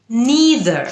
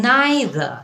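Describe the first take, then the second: First: "neither" as NEE-ther, pitched up; American pronunciation. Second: "Neither" as NYE-thuh, drawn out; British pronunciation. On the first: Teacher labels the American form, "neither" as NEE-ther. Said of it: "American উচ্চারণ". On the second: Teacher labels the British form, "Neither" as NYE-thuh. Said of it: "British উচ্চারণ". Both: Shown as a demonstration.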